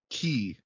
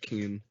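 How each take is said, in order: First: The final n sound is left silent. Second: The final n sound is pronounced. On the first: The speaker calls it wrong. "like the end silent. It's not" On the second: The speaker calls it right. "That's how you pronounce it"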